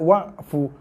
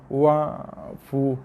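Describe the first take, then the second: First: The ain sound is hard and solid with no tail. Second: The ain sound is soft with a slight trailing tail. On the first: The speaker calls it wrong. "tak nak wa'fu. Bukannya dibaca dengan keras, solid wa" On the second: The speaker calls it right. "jaga ain"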